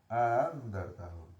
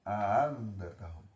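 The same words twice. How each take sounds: No difference in how they are said.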